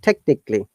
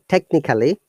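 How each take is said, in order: First: The vowel before -lly is dropped. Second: The vowel before -lly is fully pronounced. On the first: The speaker calls it right. "try to pronounce it technically" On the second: The speaker calls it wrong. "So it is not technically"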